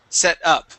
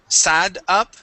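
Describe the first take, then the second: First: The first vowel is a short 'e' sound. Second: The first vowel sounds like the 'a' in sad. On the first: The speaker calls it right. "this is short e" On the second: The speaker calls it wrong. "here you had said um, sad, sad up"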